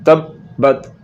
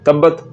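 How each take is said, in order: First: The word has a brief stop in the middle. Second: The word runs on without a brief stop. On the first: The speaker calls it right. "आपने थोड़ा-सा रुकना है और फिर पढ़ना है" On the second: The speaker calls it wrong. "तो ये सही नहीं है।"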